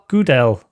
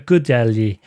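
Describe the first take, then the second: First: The name ends on a plain L sound. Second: The name ends with an added Y sound. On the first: "I think it's Gudel" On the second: "a J on the end, which is usually a Y. So it's like a Gudelji"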